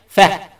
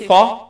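First: The consonant is light and plain. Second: The consonant is heavy and emphatic. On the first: The speaker calls it right. "you read it light" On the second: The speaker calls it wrong. "Don't say fa. You start with the letter with the fa as musta'li. That's wrong"

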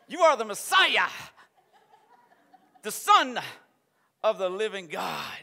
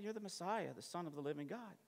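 First: It is said forcefully, like a preacher. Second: It is said in a relaxed, offhand way. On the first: It is a bold declaration of conviction. "He's got a little preach in his voice" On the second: It is a passing, offhand remark. "if they were just over here having coffee"

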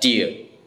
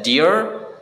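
First: It is said in a British accent. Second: It is said in an American accent. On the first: "tapi di British English ini dibaca dear" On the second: "Kalau di American English ini dibaca dear"

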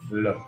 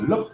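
First: The pitch stays level and calm. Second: The pitch rises on the word. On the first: The speaker calls it right. "nhưng không lên giọng như thế" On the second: The speaker calls it wrong. "lên giọng của mình như thế này, ok, nhầm rồi á"

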